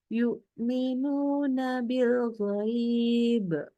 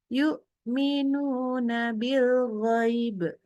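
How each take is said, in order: First: The vowel in ghaib is held longer. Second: The vowel in ghaib is clipped short. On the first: The speaker calls it right. "itu dua harakat" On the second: The speaker calls it wrong. "sama sekali dia tidak memberikan eh, mat istilahnya, memberikan panjang"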